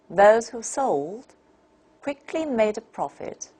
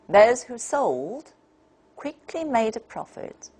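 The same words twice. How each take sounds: No difference in how they are said.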